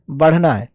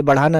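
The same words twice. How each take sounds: First: बढ़ना said short, badh-na, no aa in the middle; बढ़ना with the middle vowel dropped; the right word. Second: बढ़ाना with a long middle aa, ba-dhaa-naa; the wrong reading बढ़ाना, three full syllables; बढ़ाना said as the mistake, long aa after ढ़; wrong word, not this one. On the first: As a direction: correct it to बढ़ना, two quick syllables. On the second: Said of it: "ये बढ़ाना नहीं है". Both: Shown as a demonstration.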